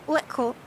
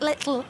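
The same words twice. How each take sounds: First: LICKLE with the T slipped back into a K sound; botched plosive T. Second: LITTLE with a distinct mid-tongue T; successful plosive T. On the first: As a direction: attempt a mid-tongue T in little, landing on "lickle". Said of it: "I did it wrong". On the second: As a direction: say little with the T released from the sides of the tongue. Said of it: "I did it". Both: Shown as a demonstration.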